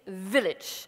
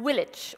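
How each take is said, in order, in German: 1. Das Wort beginnt mit einem v-Laut. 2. Das Wort beginnt mit einem w-Laut. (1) "und nicht village" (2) "die sagen village"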